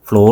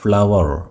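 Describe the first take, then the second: First: The word is said with a single 'floor' vowel. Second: The word is said with a two-part 'flower' vowel. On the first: The speaker calls it wrong. "ഫ്ലോർ എന്നല്ല അത് ഉച്ചരിക്കേണ്ടത്" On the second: The speaker calls it right.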